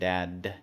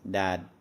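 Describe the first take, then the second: First: The final d is released with a puff of air. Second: The final d stops suddenly with no release. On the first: "we end our final consonants in English often with an aspiration" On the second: "it comes to a very hard, sudden stop"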